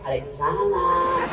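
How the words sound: It is said in a soft, sultry voice.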